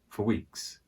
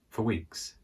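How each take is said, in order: First: The word 'for' is weak and quick. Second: The word 'for' is weak and quick.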